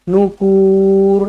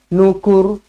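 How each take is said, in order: First: The final vowel is drawn out long. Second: The final vowel is kept short. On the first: The speaker calls it wrong. "jangan panjang. Nukur, tak nak" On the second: The speaker calls it right. "Pendek je"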